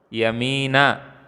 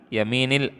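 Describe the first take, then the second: First: The word ends with an a vowel. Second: The word ends with an i vowel. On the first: The speaker calls it wrong. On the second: The speaker calls it right.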